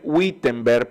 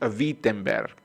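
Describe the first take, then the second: First: The word begins with a W sound. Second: The word begins with a V sound. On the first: "se escribe Wittenberg" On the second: "pero la pronunciación es Wittenberg"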